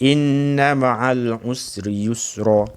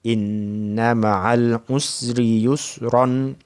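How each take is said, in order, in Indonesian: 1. Kata terakhir berakhir dengan vokal panjang. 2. Kata terakhir berakhir dengan bunyi n. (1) "Kalau kita berhenti" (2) "Kalau kita sambung tak apa"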